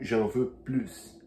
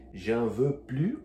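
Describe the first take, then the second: First: J'en veux plus, slow, with a clear final S; slow, plus ending in S; S pronounced. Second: J'en veux plus, slow, plus ending on the vowel; slow, S dropped; silent S. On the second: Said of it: "o exemplo que eu falei". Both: Shown as a demonstration.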